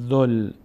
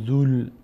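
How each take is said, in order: First: A short vowel joins straight onto the L. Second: A long vowel is held before the L. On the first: The long letters are dropped in reading. The speaker calls it right. "ضمه زال میچسبه به لام میشه ذل" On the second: The long letters are wrongly read aloud. The speaker calls it wrong. "دیگه نمیشه ذول"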